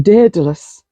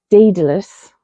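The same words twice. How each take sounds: First: "Daedalus" said the way Kelly says it, starting DED-a-lus; a friend's accent on "Daedalus". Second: Said in the usual way. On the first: Retold or imitated. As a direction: imitate Kelly saying "Daedalus". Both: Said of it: "said that in a Kelly accent".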